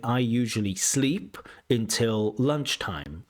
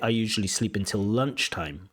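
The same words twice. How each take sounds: First: The stress falls on the word sleep. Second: The stress falls on the word lunchtime. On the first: The speaker calls it wrong. "You're saying" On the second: The speaker calls it right. "I think it's better to say"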